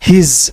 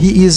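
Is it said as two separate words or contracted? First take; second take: contracted; separate. First: One contracted syllable ending in a z sound. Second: Two separate words with a full vowel between. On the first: "এখানে স না কিন্তু জ" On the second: "তখন হি ইজ হয়ে গেল হিজ"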